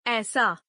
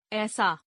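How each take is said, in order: First: Said in the usual way. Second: ऐसा with "e" for "ai"; mispronounced. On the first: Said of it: "शुद्ध". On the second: Shown as a demonstration. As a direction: say ऐसा as "esaa". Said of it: "अशुद्ध".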